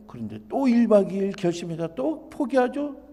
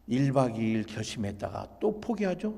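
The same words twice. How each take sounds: First: Higher, louder stress on "또 일 박 이 일"; emphatic repetition. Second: Said in the usual way. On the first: Shown as a demonstration. Lecturer stressing that the son repeats the cycle, "또" emphatic. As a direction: hit "또" and lift "일 박 이 일" high and loud.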